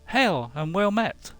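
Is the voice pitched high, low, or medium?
high. The voice is pitched high. "the higher one C"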